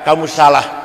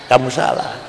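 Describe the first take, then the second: First: It is said loudly and forcefully. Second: It is said quietly and faintly. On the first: The conscience is still strong and alive. "keras sekali suaranya" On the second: The conscience is fading after repeated sin. "lama-lama fuadnya pelan-pelan"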